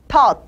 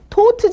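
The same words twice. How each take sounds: First: The vowel is open, between ah and uh. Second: The vowel is rounded like oh. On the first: The speaker calls it right. "이거는 아도 아니고 어도 아닌 중간 발음이에요" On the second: The speaker calls it wrong. "Taught G가 아니라"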